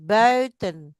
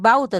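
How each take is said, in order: First: The first vowel is pronounced like Dutch 'ui'. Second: The first vowel is pronounced like 'au'. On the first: The speaker calls it right. "bui, bui, buiten" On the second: The speaker calls it wrong. "Bukan bauten"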